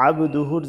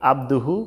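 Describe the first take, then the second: First: আবদুহুর opening on a pressed ain; correct throat ain. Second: আবদুহু with simple alif; common mistaken reading. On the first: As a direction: squeeze the first sound of আবদুহুর. (আবদুহুর, আইন চাপ দিয়ে) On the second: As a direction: say আবদুহু easily, no throat pressure. (আবদুহু, সহজ আলিফ দিয়ে) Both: Shown as a demonstration. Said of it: "জায়গায় বলে থাকে".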